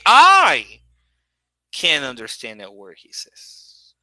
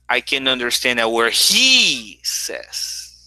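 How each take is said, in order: First: The stress falls on the word I. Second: The stress falls on the word he. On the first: "I can make I the main stress" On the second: "When I say he says, my stress is on he"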